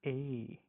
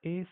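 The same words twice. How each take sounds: First: "A" drawn out with jaw dropped; German umlaut "A", held long; A umlaut sound. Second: Said in the usual way. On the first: Shown as a demonstration. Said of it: "bring down your jaws down". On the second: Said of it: "the A sound will become".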